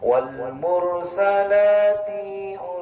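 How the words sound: There is a break after mursalati. The speaker calls it wrong. "dijeda perkataan. Contohnya gini"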